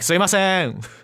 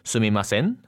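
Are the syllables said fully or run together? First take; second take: run together; fully. First: The syllables are bunched and run together. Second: Every syllable is pronounced fully and separately. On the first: "you're kind of like bunching everything up" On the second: "when you said it, you're like"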